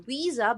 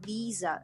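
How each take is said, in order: First: It begins with a w sound, lips rounded. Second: It begins with a v sound, teeth on lip. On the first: The speaker calls it wrong. "this should not be like a visa" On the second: The speaker calls it right. "you should say visa"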